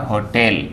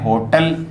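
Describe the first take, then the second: First: होटल said with the correct vowel; correct pronunciation. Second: होटल said the everyday way; common way. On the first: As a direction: say होटल the proper way, carefully. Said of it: "लेकिन सही होता होटल". (होटल सही उच्चारण के साथ) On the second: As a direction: say होटल like people usually do. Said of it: "अपन बोलते हैं होटल". (होटल आम बोलचाल वाले उच्चारण में) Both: Shown as a demonstration.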